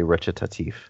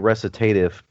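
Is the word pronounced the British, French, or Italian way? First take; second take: Italian; British. First: The word is pronounced in an Italian manner. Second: The word is pronounced in an English manner. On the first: "If you're getting it from Italian, you say recitatif" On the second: "if you're British, you say recitative"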